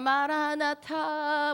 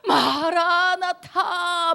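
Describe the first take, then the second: First: It is said casually, without feeling. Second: It is said earnestly, with deep feeling.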